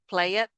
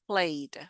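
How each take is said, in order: First: The ending is said as an extra syllable. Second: The ending is joined into one syllable. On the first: The speaker calls it wrong. "We don't say play it" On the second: The speaker calls it right. "The E is muted"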